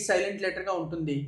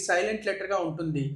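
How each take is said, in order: Both takes have the same delivery.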